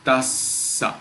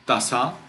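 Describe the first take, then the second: First: Tassa slow, with a long held ss; double consonant. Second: Tassa with a short s, rising at the end; single consonant. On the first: Teacher showing the right reading, tassa with the s held long. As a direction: linger on the s of tassa, then release. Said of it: "It is tassa". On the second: Teacher showing the wrong reading, tassa with a brief s. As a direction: say tassa without holding the s. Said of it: "it is not tassa". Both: Shown as a demonstration.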